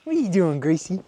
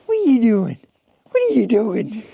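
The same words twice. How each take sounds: First: Said in the usual way. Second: Louder, higher call across the yard. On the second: Real, not acted. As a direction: call the dog from afar. Calling the dog in snow.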